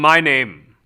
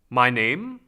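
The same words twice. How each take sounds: First: It is said after a hum, resonant and forward. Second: It is said without a hum, plainer and less resonant.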